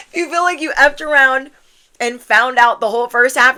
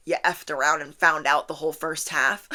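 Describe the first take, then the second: First: High, loud, amused declaration; loud emphatic repeat. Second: Said in the usual way. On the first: Real, not acted. Reader owns up to a messed-up first half, loud and emphatic. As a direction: belt it out after a laugh. Repeats it louder after laughing.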